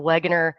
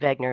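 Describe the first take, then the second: First: The name begins with a W sound. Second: The name begins with a V sound. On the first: "you could say it that way if you want to" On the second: "They pronounce the, the that W with a V"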